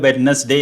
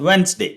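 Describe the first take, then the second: First: Every letter is sounded, including the middle d. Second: The middle d is dropped, sounding like Wensday. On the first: The speaker calls it wrong. "നമ്മൾ മലയാളത്തിൽ വെഡ്നസ്ഡേ എന്ന് പറയും" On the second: The speaker calls it right. "But actually it's pronounced as വെൻസ്ഡേ"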